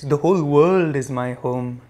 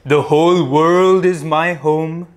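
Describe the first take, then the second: First: The voice is at normal speaking volume. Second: The voice is loud and powerful. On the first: "In a regular voice" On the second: "loudly first, powerfully first"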